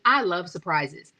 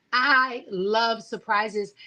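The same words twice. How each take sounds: First: Said in the usual way. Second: "I love surprises" drawn out slowly, each word leaned on; savoring the words. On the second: Shown as a demonstration. Telling Sekou about herself, slow and savoring. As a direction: let it linger, slow and relishing.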